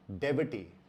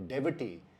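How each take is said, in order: The two takes are said the same way.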